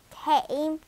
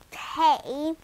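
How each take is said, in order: Both takes have the same delivery.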